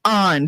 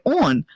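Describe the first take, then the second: First: "On" as an open "ahn"; corrective "on". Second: "On" as rounded "awn"; imitated pronunciation of "on". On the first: Shown as a demonstration. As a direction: demonstrate "On" with AH. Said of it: "It's very easy". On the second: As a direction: echo "On" wrongly as "awn". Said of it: "She's like".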